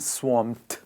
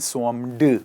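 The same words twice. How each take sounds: First: The -ed ending is a single consonant sound. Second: The -ed ending is said as an extra syllable. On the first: The speaker calls it right. "ईडी को pronounce करा जाता है ठ से. सो हम बोलते हैं swarmed" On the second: The speaker calls it wrong. "बहुत सारे लोग कहते हैं swarmed"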